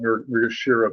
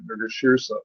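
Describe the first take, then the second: First: There is no s sound near the end. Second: An s sound is heard near the end. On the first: The speaker calls it wrong. "I used to always call it Mrigashira" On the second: The speaker calls it right. "there's an S in it"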